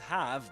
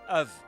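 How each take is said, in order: First: It is said in full with a clear vowel. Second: It is said weakly, sounding like 'of'. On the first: The speaker calls it wrong. "not pronounced as have" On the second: The speaker calls it right. "but of"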